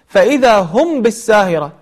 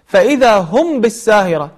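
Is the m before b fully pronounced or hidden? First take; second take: clear; clear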